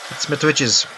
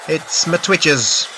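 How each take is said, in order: First: Said in the usual way. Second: "my" drawn out slowly with falling tune; stress on my. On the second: Shown as a demonstration. Streamer greeting viewers, slow stress on "my". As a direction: lean on "my" in "it's my Twitches", slow.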